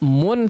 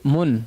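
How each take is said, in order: First: The vowel is a full, clear u sound. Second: The vowel is reduced, not a full u. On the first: The speaker calls it right. "harusnya mun" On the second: The speaker calls it wrong. "tapi mun"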